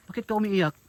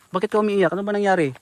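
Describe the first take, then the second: First: Said in the usual way. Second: Louder, pushed repeat of the question; raised voice asking again; calling louder. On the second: Real, not acted. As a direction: call out so she hears you. Repeats louder after no answer.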